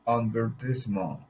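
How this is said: It is said in a British accent. "in British English English sounds advertisement"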